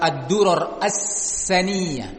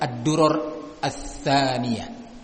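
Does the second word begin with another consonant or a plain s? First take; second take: plain s; another consonant. First: The second word begins with a plain s. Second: The second word begins with another consonant. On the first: "pakai sin"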